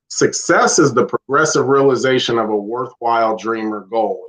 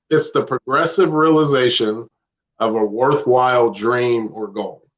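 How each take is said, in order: First: It is said fast. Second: It is said slowly.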